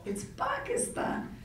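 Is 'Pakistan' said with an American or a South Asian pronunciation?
south asian. Pakistan is said with a South Asian pronunciation. The speaker gives the country's own way of saying its name. The speaker calls it right. "no, actually"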